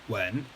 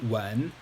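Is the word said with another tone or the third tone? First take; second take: third tone; third tone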